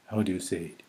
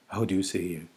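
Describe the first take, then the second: No difference in how they are said.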